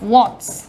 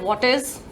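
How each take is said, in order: First: It is contracted into one short word. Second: It is said as two full words.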